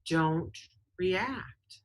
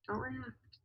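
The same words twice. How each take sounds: First: Said in the usual way. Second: Much softer, higher, almost breathed; hushed second take of the advice; quiet repeat. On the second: Shown as a demonstration. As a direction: drop it right down, like a calming reminder.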